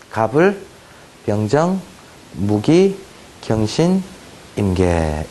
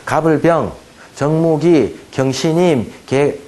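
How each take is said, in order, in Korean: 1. 음절이 두 개씩 짝지어 묶여 있어요. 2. 음절이 고르지 않게, 어색하게 끊어져 묶여 있어요. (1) "이런 식으로 외워주시면 좋겠다" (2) "이렇게 외우지 말고요"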